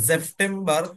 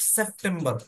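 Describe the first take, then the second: First: The word begins with a z sound. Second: The word begins with an s sound. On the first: The speaker calls it right. "বলকে জ" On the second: The speaker calls it wrong. "Not সেপ্টেম্বর বলবেন"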